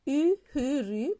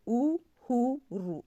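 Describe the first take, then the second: First: "uhuru" read with a French u; written form. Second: "uhuru" slow, with ou sounds, oo-hoo-roo; slow, spoken form. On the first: (« uhuru » lu avec le u français, tel qu'écrit) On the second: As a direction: draw out "uhuru" with ou vowels. (« uhuru » lent, avec le son ou) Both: Shown as a demonstration. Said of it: "tu écris uhuru".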